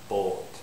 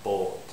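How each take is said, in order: First: The vowel is a rounded 'o' sound. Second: The same.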